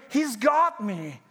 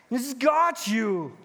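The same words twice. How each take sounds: First: He's got me, got stressed slowly. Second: He's got you, got stressed slowly. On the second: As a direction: tell your neighbour, leaning on got. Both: Shown as a demonstration. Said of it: "Can you tell that to your neighbor?".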